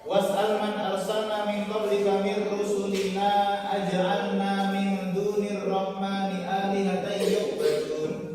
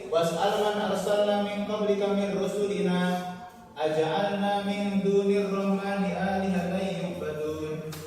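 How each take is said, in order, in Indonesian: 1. Terus tanpa jeda setelah "rusulina". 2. Ada jeda setelah "rusulina". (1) "lanjut itu lebih baik" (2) "Walaupun berhenti juga boleh"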